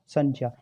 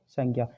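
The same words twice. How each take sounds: First: The word is said in its careful original form. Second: The word is said in its everyday spoken form. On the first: "ये जो है वास्तविक उच्चारण है इसका" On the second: "जो हम बोलते हैं"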